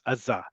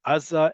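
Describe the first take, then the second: First: "Aza" with the weight on the final za; stress on last syllable. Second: "Aza" with the weight on the opening A; stress on first syllable. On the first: Teacher contrasting two pronunciations for students, last-syllable stress on "Aza". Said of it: "is on the last syllable". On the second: Teacher contrasting two pronunciations for students, first-syllable stress on "Aza". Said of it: "sometimes pronounced Aza and sometimes Aza". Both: Shown as a demonstration.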